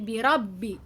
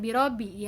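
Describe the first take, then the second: First: The b sound is held and pressed. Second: The b sound is short, not held. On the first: The speaker calls it right. "huruf ba-nya ditahan atau ditekan" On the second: The speaker calls it wrong. "bukan birobi ya"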